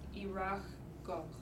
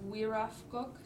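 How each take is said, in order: First: The word begins with a vowel sound. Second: The word begins with a w sound. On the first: This is the Akhiok dialect form. "the Akyark pronunciation is irafkok, with a G instead of an F" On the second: This is the Fognak dialect form. "for a Fognak pronunciation is wirafkok, W-I"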